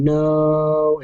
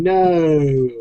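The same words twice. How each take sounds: First: Said in the usual way. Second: Vader modulated no. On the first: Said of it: "sounds exactly like someone just saying". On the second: Retold or imitated. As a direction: push no through a voice modulator. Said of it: "voice modulator and going".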